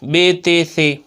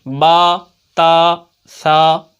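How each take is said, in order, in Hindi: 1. अक्षरों के नाम 'e' स्वर पर खत्म होते हैं। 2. अक्षरों के नाम 'a' स्वर पर खत्म होते हैं। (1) "ये उर्दू वाला लहजा है" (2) "अरबी वाला लहजा"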